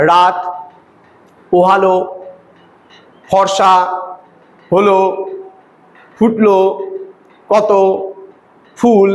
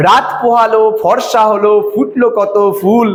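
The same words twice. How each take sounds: First: Long pause after every word from "রাত" to "ফুল"; disconnected single words, a second's silence after "রাত" and each word following. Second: Flowing beats from "রাত পোহালো" to a final "ফুল"; rhythmic verse reading. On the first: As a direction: isolate "রাত", "পোহালো", "ফর্সা", "হলো", "ফুটলো", "কত", "ফুল". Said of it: "আমি কিন্তু এইভাবে করছি না". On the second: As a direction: join the words in pairs, "রাত পোহালো", "ফর্সা হলো", "ফুটলো কত", then "ফুল". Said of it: "দেখবা এইভাবে করে আমরা কবিতা পড়ি". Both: Shown as a demonstration.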